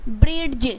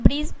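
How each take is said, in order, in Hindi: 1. अंतिम ध्वनि से पहले एक अलग d ध्वनि आती है। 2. अंतिम ध्वनि से पहले कोई अलग d ध्वनि नहीं आती। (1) "अगर इसे पढ़ोगे ब्रिड्ज, ब्रिड्ज नहीं पढ़ना है आपको" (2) "यहाँ पे ब्रिज पढ़ना है"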